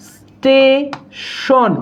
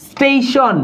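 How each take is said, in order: First: "station" stretched very slowly, syllable by syllable; drawn-out demonstration. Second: Said in the usual way. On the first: Shown as a demonstration. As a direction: linger on the opening of "station", pause, then finish it. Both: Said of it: "এই বানানগুলোতে কি বসবে?".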